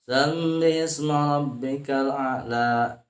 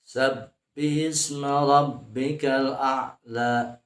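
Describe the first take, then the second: First: The b sound is blurred, almost like an m. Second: The b sound is clear, with both lips closed. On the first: The speaker calls it wrong. "Jadi terdengarnya seperti bukan sab" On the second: The speaker calls it right. "Sab dengan dua buah bibir ditutup"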